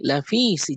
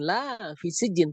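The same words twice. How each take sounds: First: The vowel in la is cut short. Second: The vowel in la is drawn out long. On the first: It expresses emphasis. The speaker calls it right. "kalau dipendekkan artinya li taukid" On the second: It expresses negation. The speaker calls it wrong. "bukan la fi sijin"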